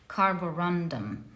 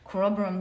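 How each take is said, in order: First: The word is said with four syllables. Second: The word is said with three syllables. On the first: The speaker calls it right. "That's how it's pronounced properly" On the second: The speaker calls it wrong. "I always make this mistake. I always call it the Corobrum"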